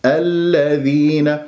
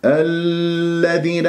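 First: Slow الذين, doubled ل released without dragging; measured الذين with a brief firm L; correct short lam. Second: الذين with the doubled ل held far too long; overlong lam. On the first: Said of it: "الصحيح ألا وبس". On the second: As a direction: drag out the L in الذين. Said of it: "هكذا أطالتها خطأ". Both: Shown as a demonstration.

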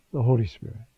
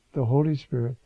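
Both takes have the same delivery.

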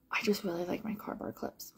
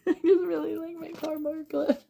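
First: Breathy hushed whisper; soft secret whisper. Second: High, laughing put-on voice; giggly higher-pitched repeat. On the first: Pretend. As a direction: whisper it like a little confession. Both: Repeats the line in two voices.

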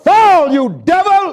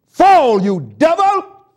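First: Louder, higher, slower rebuke; slow shouted rebuke; slow loud command. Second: Loud, high command to the devil; shouted rebuke. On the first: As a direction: drag it out and throw it down. Commanding the devil, repeated. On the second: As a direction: cast him down with the voice. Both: Real, not acted.

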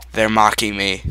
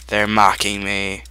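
Both takes have the same delivery.

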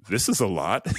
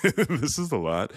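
First: Said in the usual way. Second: Said through a laugh, a bit higher. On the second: Real, not acted. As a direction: laugh it off, overwhelmed. Repeats it, laughing.

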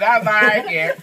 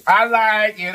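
First: Goofy, playful sing-song; silly voice. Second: Said in the usual way. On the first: Real, not acted. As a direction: ham it up playfully. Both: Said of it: "Stop being so silly".

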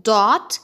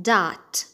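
First: "dot" with a rounded O; loud "dot", round short O; British DOT. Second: "dot" with an open ah; low "daht"; American DOT. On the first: Teacher showing British "dot", rounded-O pronunciation. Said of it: "في البريتش أكسنت هتتقال". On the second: Teacher showing American "dot", open-vowel pronunciation. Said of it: "في الأمريكان أكسنت هتتقال". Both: Shown as a demonstration.

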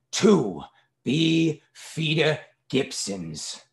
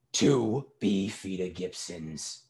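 First: "Two Beefeater Gibsons" very slow and higher, word by word; slow dictation. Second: "Two Beefeater Gibsons" slow, measured and unraised; slow repetition. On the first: Father dictates order to waiter. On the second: Father repeats order for waiter. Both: A narrator's reading.

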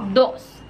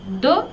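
First: "dos" with sounded final s; Spanish number "dos", s audible; Spanish pronunciation. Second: "do" with the s dropped; French "do", ending on the open vowel; French pronunciation. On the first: Teacher names the number two, Spanish pronunciation. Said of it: "en francés no vamos a pronunciar la S". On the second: Teacher shows the word for back, final s silent. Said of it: "no vamos a pronunciar la S". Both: Shown as a demonstration.

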